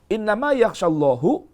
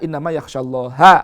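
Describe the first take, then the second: First: The word Allah ends with a 'u' vowel. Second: The word Allah ends with an 'a' vowel. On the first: God pours reverent fear into the scholars. "Tapi kalau dibalik" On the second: The scholars are the ones who fear God. "kalau dibaca"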